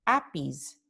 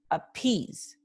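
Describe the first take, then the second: First: "appease" wrongly stressed on the first syllable, AP-pease; acento inicial. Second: "appease" stressed on the second syllable, a-PEASE; acento final. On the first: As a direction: hit the opening "a" of "appease". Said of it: "nosotros no decimos appease". ("appease" con el acento en la primera sílaba) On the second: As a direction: lean on the long "ee" of "appease". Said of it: "la vocal acentuada es I". ("appease" con el acento en la I) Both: Shown as a demonstration.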